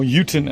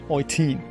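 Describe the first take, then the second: First: The name is pronounced the English way. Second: The name is pronounced the German way.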